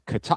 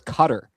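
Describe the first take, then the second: First: The stress is on the second syllable. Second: The stress is on the first syllable. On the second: "The emphasis here is on the first syllable"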